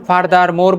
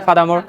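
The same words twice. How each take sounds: First: "furthermore" with every r sounded, far-dar-mor; hard-r FURTHERMORE. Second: "furthermore" without r's, fa-da-mo; easy FURTHERMORE. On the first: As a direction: labour each r in "furthermore", slowly. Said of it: "furthermore বললে কষ্ট হয়". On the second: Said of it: "যে সহজ কোনটা বলে?". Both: Shown as a demonstration.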